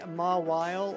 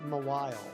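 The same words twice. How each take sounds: First: The stress is on the first syllable. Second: The stress is on the second syllable. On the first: "Do you put the emphasis on the Ma" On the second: "or the Y?"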